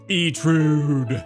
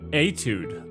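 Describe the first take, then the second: First: An R sound follows the T. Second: No R sound follows the T. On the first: The speaker calls it wrong. "I said trude. I put an R in there" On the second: The speaker calls it right. "I was completely wrong"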